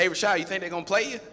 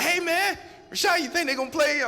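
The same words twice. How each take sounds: First: Quick, higher, eager buddy asking; eager nudge. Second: Very high, loud excited yell, fast; buddy yelling at his friend as players drop; excited shout. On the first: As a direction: hurry the question, lightly excited. Buddy nudging him on sideline. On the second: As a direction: shout it like you can't sit still. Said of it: "Speedy's getting excited". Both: Retold or imitated.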